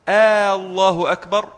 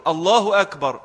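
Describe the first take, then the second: First: "الله أكبر" with a long, loud opening "aa"; questioning stretched alef. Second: Said in the usual way. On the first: Shown as a demonstration. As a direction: turn it into a question by lengthening the first vowel of "الله". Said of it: "بيسأل". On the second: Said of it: "فالسؤال ليس خبر".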